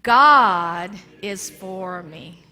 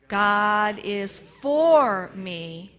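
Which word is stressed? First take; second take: God; for. First: The word God is stressed. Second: The word for is stressed.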